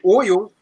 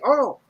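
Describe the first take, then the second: First: Oil is said in the speaker's own accent. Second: Oil is said like Earl, New Orleans style.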